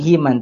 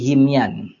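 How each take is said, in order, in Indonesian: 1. Kata itu diucapkan tanpa bunyi y. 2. Kata itu diucapkan dengan bunyi y. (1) "Bukan himan" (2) "tapi himyan"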